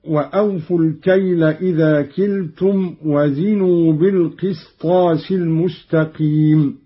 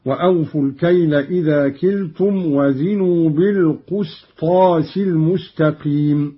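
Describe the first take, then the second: First: Said in the usual way. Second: بالقسطاس as "bil-qusṭās"; damma on the qaf. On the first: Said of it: "قرأ قالون بضم القاف". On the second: Shown as a demonstration. Teacher demonstrating Qalun's reading, بالقسطاس with damma on qaf. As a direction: recite بالقسطاس with a short u after the q. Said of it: "بضم القاف".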